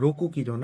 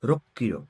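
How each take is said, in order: First: The 'ku' is said fully before 'kilo'. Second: The 'ku' merges into a doubled 'k' sound. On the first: The speaker calls it wrong. "রোকু কিলো না" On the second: The speaker calls it right. "দুইটা ক উচ্চারণ আসছে দেখে এটা দুইটা এক হয়ে গেছে"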